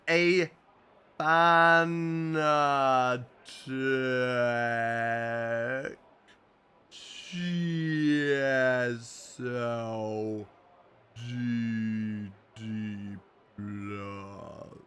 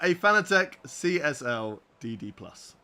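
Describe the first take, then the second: First: It is said very slowly. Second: It is said at normal speed.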